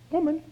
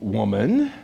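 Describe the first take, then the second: First: The word is said in a polite, gentle way. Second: The word is said in a rude, dismissive way. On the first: The speaker shows respect. The speaker calls it right. "He could have said it politely" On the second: The speaker shows disrespect. The speaker calls it wrong. "that doesn't sound so respectful"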